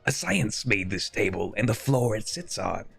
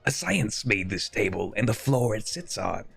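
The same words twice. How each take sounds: First: It is read in a put-on funny character voice. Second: It is read in a put-on funny character voice.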